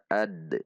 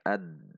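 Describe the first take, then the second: First: The final d is released with a slight bounce. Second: The final d is cut off with no bounce. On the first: The speaker calls it right. "Qalqalahnya adalah sugro" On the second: The speaker calls it wrong. "Tidak juga dibaca ad. Hilang qalqalahnya"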